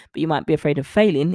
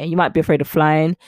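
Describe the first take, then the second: First: "failing" said as the intended word, a touch faster; the corrected take, landing on "failing". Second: "flying" said by mistake in place of "failing"; the misspoken take, "flying" instead of "failing"; slip of the tongue. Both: Shown as a demonstration. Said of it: "is what I was trying to say".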